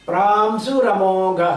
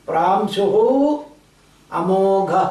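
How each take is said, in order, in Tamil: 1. இரண்டு வார்த்தைகளும் சேர்ந்து ஒன்றாக சொல்லப்படுகின்றன. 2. இரண்டு வார்த்தைகளும் தனித்தனியாக சொல்லப்படுகின்றன. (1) "சேர்ந்து வரும்போது" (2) "இப்படி வரணும்"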